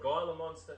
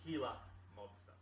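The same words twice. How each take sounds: First: The first G of the word is pronounced. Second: The first G of the word is silent. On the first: The speaker calls it wrong. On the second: The speaker calls it right. "the G is silent"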